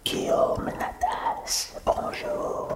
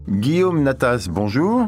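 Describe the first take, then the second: First: It is said in a soft whisper. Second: It is said in a normal voice.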